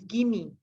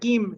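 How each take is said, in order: First: The word is said as two syllables. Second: The word is said as one syllable. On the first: The speaker calls it right. "it's gimme" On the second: The speaker calls it wrong. "it's not gim"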